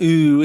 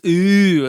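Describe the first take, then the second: First: The vowel is a plain, steady ooh. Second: The vowel dips in sound as it is held. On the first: The speaker calls it wrong. "It's not like an ooh" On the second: The speaker calls it right. "it dips in sound"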